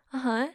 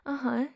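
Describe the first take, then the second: No difference in how they are said.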